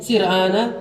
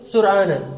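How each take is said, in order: First: The first vowel is an i sound. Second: The first vowel is a u sound. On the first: "boleh sir'ana" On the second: "boleh sur'ana"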